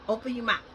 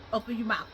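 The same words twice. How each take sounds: The two takes are said the same way.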